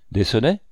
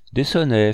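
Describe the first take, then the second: First: "Des sonnets" with a rising end; questioning echo. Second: "Des sonnets" higher, falling at the end; matter-of-fact answer. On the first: Sculptor checks what the count asked, questioning "Des sonnets". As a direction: ask "Des sonnets" back, tune going up. Same words echoed as a question. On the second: Sculptor answers the count's question, falling "Des sonnets". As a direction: say "Des sonnets" as a firm statement. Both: A narrator's reading.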